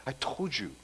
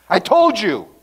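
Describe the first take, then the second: First: Said in the usual way. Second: Smug complaint. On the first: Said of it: "Don't you say that, right, parents?". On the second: Retold or imitated.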